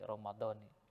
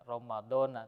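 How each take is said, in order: First: The word ends with an 'ee' vowel. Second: The word ends with an 'a' vowel. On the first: The speaker calls it right. "tetapi Ramadhani ... itulah cara baca yang benar" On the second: The speaker calls it wrong. "yang bacanya bukan e, Ramadhana"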